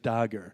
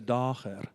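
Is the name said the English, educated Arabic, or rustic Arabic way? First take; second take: English; educated Arabic. First: It is said with an English pronunciation. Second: It is said with an educated Arabic pronunciation. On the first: "when he's saying it in English" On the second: "who is an educated man"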